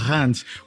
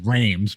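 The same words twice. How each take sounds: First: It is said with a French pronunciation. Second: It is said as it reads in English. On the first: The speaker calls it right. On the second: The speaker calls it wrong.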